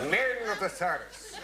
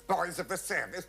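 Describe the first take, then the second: First: "Men" pitched high and drawn out; emphatic MEN. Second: Put-on "Boys of the service" high, with hissing S sounds; mocking sibilants. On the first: Retold or imitated. Officer correcting the song to "Men", emphatic. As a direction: lean long and hard on the word "Men". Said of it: "No, let's make it men". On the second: Officer mimicking the troupe's "service", mocking the sibilants. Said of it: "And all those sibilants".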